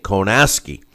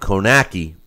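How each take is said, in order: First: The name is said with an s sound. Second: The name is said without an s sound. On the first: It is how others have been saying the name. "everyone else has been pronouncing it Konaski. Uh, like uh, there's an S in there" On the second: It follows how the name looks in writing. "because that's the way it looks"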